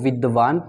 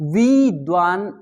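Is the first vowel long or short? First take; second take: short; long. First: The first vowel is held short. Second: The first vowel is held long. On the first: The speaker calls it right. "लय नहीं टूटेगी" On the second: The speaker calls it wrong. "इसे अत्यधिक समय दिया जा रहा है"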